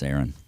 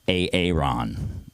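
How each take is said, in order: First: The name starts with one smooth vowel sound. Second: The name starts with two separately spoken letters. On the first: The speaker calls it right. "It's Aaron" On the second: The speaker calls it wrong. "It's not A A R O N, so please don't call me A-A-Ron"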